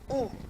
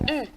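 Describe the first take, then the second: First: The vowel is the back 'ou' sound. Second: The vowel is the rounded front French 'u'. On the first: "en langue Hausa ... ça se lit OU" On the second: "en français, on va lire ça U"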